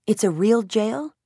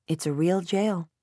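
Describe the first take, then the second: First: Slow, higher "It's a real jail?" rising on "real"; amazed question. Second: Said in the usual way. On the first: A narrator's reading. Charlie asking Dad in awe if "It's a real jail?". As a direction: stretch "real" with wide-eyed wonder. Child asks in wonder.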